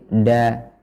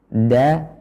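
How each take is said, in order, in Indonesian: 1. Ujung lidah menyentuh langit-langit mulut. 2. Ujung lidah menyentuh pangkal gigi atas.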